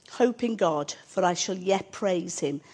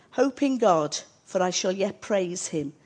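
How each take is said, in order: No difference in how they are said.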